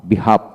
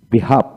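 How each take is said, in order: Both takes have the same delivery.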